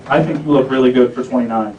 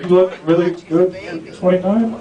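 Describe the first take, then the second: First: Said in the usual way. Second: "You look really good for twenty-nine" turned into a question, rising to the end; halting compliment, "twenty-nine" lifted as a doubtful question; unsure questioning repeat. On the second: Retold or imitated. Repeats failed compliment, now unsure.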